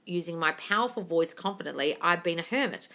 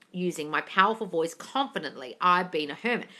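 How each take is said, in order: Both takes have the same delivery.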